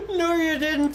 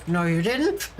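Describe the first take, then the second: First: No, you didn't through a laugh, higher. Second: Said in the usual way. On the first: Real, not acted. Retorting to a student through real laughter. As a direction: giggle the words out. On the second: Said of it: "And it's like".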